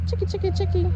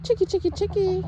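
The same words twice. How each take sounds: First: High loud repeated call; calling chickens. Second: Loud high sing-song call; calling chickens. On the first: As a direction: sing it out to the birds. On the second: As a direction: call the flock over. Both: Real, not acted.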